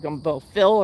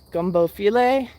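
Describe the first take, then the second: First: The second word is one syllable, like fill. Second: The second word has two syllables ending in ay. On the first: The speaker calls it wrong. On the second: The speaker calls it right.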